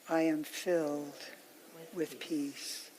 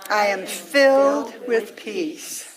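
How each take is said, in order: First: It is said at the softest level of all. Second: It is said at the loudest level of all. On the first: "let it get softer and softer" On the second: "let it get softer and softer"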